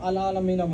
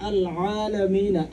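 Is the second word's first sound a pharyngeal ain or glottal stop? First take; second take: glottal stop; pharyngeal ain. First: The second word starts with a plain glottal stop. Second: The second word starts with a throaty pharyngeal sound. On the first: The speaker calls it wrong. "হামজা চলে আসলো আল আলামিনা বললে" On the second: The speaker calls it right. "এটা বলতে হবে আল আলামিনা, আইনটা প্রনাউন্স করতে হবে"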